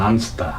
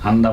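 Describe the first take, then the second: First: The middle consonants sound like 'st'. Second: The middle consonant sounds like 'd'. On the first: The speaker calls it wrong. "আনস্তা বলতো" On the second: The speaker calls it right. "আসলে এটা কি হবে আন্দা"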